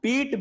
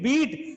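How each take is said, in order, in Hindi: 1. स्वर लंबी 'ee' ध्वनि है। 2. स्वर लंबी 'ee' ध्वनि है।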